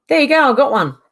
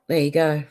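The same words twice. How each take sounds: First: High and loud, pleased; triumphant exclaim. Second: Said in the usual way. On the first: Real, not acted. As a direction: announce the win loudly. Triumphant after blocking user.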